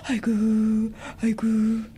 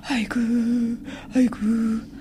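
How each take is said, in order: First: High keening aigu, aigu; wailing. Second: High mournful wail of aigu. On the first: Family wails again for the absent son, high keening. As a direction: wail it out in ritual grief. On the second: Family wails as the dead father's soul arrives, wailing high. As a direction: cry out aigu like a keening mourner. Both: Acted. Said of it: "We wailed".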